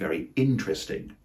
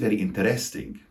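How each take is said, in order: First: The stress falls on the first syllable of interesting. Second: The stress falls toward the end of interesting. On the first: The speaker calls it right. "more accurately, it should be" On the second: The speaker calls it wrong. "the primary stress tends to be towards the end of the word"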